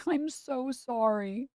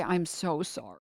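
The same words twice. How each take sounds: First: Slow, high giggling sorry; laughing apology. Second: Said in the usual way. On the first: Real, not acted. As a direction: drag it out through a laugh.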